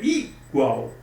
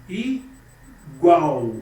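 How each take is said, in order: First: "igual" with a raised, punched first I, then gual; stress on I. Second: "igual" split, with GUAL hit louder after a pause; stress on GUAL. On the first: Teacher offering the wrong option, "igual" stressed on I. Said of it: "ou é igual?". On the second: Teacher testing the strongest syllable, "igual" stressed on GUAL. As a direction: say "igual" as i... GUAL, weight on the end. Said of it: "qual que é a sílaba mais forte?". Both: Shown as a demonstration.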